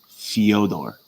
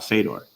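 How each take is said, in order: First: It begins with an 'fyo' sound. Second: It begins with a plain 'fe' sound. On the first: The speaker calls it right. "It's Fyodor" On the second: The speaker calls it wrong. "it's not Fedor"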